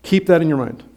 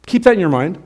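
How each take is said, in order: First: "that" stressed, quieter, falling tune; softer falling repeat. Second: "that" lifted with a rising tune; rising emphasis on that. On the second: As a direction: stress "that", voice rising at the end. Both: Shown as a demonstration.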